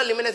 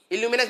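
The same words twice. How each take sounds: First: ल्यूमिनस said starting straight on the l, with no leading vowel; correct pronunciation. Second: इल्यूमिनस said with an extra leading i sound; wrong pronunciation. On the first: Teacher corrects students by saying ल्यूमिनस starting straight on the l. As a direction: say ल्यूमिनस beginning directly with l. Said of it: "ल्यूमिनस बोलो". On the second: Teacher gives the mispronounced इल्यूमिनस with a leading i. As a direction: say इल्यूमिनस starting on an i sound before the l. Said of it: "इल्यूमिनस बोलो". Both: Shown as a demonstration.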